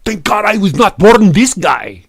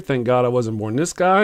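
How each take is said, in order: First: Put-on loud, high, hammy Russian accent; mock Russian troll. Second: Said in the usual way. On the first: Troll posting an insult about the streamer, loud mock Russian accent. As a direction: proclaim it in a thick, broken-English Russian accent. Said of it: "And Gregor go".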